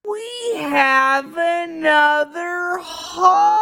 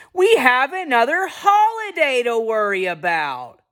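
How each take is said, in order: First: Very high, long-held mock wail; Charlie Brown. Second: High, anguished cartoon whine; exaggerated wail sliding down at the end; Charlie Brown. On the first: Charlie Brown frets about the holidays, drawn-out high cartoon wail. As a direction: stretch every word into an over-the-top anguished howl. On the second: Charlie Brown frets about the holidays, mock-anguished high whine. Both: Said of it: "And Charlie Brown says".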